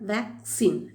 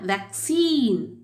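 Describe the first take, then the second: First: The stress is on the first syllable. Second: The stress is on the second syllable. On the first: This is the British pronunciation. "Wake அது அந்த இடத்துல அழுத்தம் கொடுத்து" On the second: This is the American pronunciation. "Scene அங்கே அழுத்தம் போகும்"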